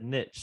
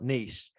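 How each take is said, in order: First: It rhymes with riches, ending like itch. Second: It ends like eesh, not rhyming with riches. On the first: This is how the listener just said it. "you just said niche" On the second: This is the usual UK way of saying it. "not niche"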